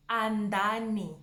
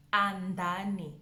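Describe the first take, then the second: No difference in how they are said.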